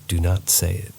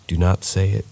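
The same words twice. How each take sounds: The two takes are said the same way.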